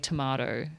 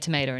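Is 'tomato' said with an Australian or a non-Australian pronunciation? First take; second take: Australian; non-Australian. First: The word is said with an Australian pronunciation. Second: The word is said with a non-Australian pronunciation. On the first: Listeners may not understand it. "I've pronounced it like the Australian way" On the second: Listeners understand it without repetition. "I just say tomato now"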